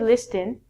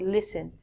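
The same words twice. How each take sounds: First: The t sound is pronounced. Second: The t sound is silent. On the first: The speaker calls it wrong. "We don't say listen" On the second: The speaker calls it right. "we don't even get to say it"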